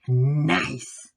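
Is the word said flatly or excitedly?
excitedly. The word is said warmly with strong emotion. The person is genuinely impressed. "the amount of emotion in the voice"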